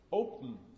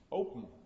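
First: The last syllable is a syllabic nasal. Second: The same.

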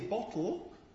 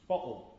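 First: The middle consonant is a clear t sound. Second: The middle consonant is a glottal stop. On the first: "You can either say bottle" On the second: "With a glottal stop"

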